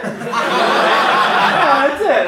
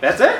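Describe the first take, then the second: First: High-pitched, falling answer; emphatic confirmation. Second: High, rising disbelief; surprised question. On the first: Manager confirms the job, high voice. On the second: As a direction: ask it incredulously, pitch jumping up. Surprised at getting job so easily. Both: Retold or imitated.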